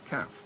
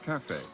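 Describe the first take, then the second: First: The word is said with Cockney pronunciation. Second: The word is said with standard pronunciation.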